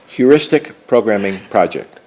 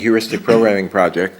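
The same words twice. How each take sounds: First: The phrase is said slowly and deliberately. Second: The phrase is said at normal, quick speed.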